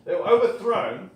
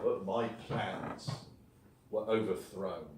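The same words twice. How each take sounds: First: "overthrown" hit hard, higher and louder, falling at the end; dramatic reveal. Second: "were overthrown" said lower and softer, trailing off; hushed quoted line. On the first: Shown as a demonstration. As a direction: announce it like a drum roll. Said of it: "Drum roll". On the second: Retold or imitated. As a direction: let the quote sink down and fade. Quoting Darwin's letter, then drum roll.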